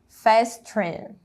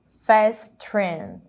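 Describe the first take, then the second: First: The two words are joined into one. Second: The same.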